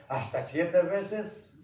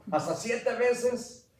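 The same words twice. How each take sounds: First: Said in the usual way. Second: "¿Hasta siete veces?" much higher and slow, pleased with itself; proud offer. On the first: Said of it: "cuando Pedro le preguntó". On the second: Retold or imitated. Peter proudly offering to forgive seven times, high slow. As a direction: offer it as if generous. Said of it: "lo doblo y le echo un pilón".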